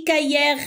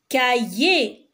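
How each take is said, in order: First: Cahier said as ka-yèr, final R audible; R wrongly sounded. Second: Cahier said slowly as ka-yé; silent final R. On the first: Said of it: "Est-ce que j'ai dit cahier?". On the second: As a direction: end cahier on é, with no R sound. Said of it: "E R à la fin du mot, c'est le son E". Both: Shown as a demonstration.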